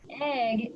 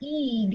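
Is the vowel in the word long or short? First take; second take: short; long. First: The vowel is a short 'eh' sound. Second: The vowel is a long 'ee' sound. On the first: The speaker calls it right. "So egg is eh, that's short" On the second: The speaker calls it wrong. "If it was a long vowel sound, it would be eeg"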